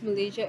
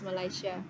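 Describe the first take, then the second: First: The word is pronounced in the usual English way. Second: The word is pronounced in the German way.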